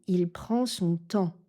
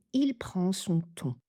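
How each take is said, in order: First: "temps" with an open "an" nasal. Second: "ton" with a closed round "on" nasal. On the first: Teacher showing the wrong sentence to learners. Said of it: "Je n'ai pas dit". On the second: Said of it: "J'ai dit". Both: Shown as a demonstration.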